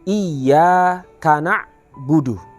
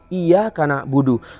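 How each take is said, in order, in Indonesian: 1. Huruf y yang ganda ditahan dan ditekan dengan kuat. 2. Huruf y yang ganda dibaca pendek dan tidak ditekan. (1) "Seharusnya adalah" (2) "bacaannya belumlah masuk pada makna dari tasydid"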